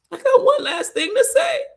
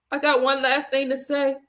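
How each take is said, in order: First: Very high, breaking wail; crying desperately. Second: Tearful but held together, reliving the moment; tearful insistence. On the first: Daughter begging her daddy to hear her, high desperate crying. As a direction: wail it desperately through tears. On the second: Daughter at her dying daddy's bedside, tearful but controlled. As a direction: hold the tears back and ask to be heard. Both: Retold or imitated. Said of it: "And I'm crying".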